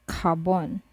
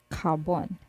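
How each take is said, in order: The two takes are said the same way.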